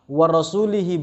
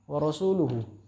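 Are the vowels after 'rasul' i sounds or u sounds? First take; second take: i sounds; u sounds. First: The ending is said with i vowels. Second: The ending is said with u vowels. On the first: Allah is free of the idolaters and of His messenger. The speaker calls it wrong. "dia membaca wa rasulihi bil jar" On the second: The messenger is also free of the idolaters. The speaker calls it right. "Dibaca pakai dom, dhammah"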